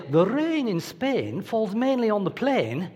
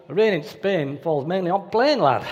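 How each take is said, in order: First: Slow, crisp Received Pronunciation English accent, every vowel rounded; posh English accent. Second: Broad northern English accent, flat vowels, ending on lad. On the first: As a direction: put on a posh English accent to sound worth more. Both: Shown as a demonstration. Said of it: "certain accents are worth more than others".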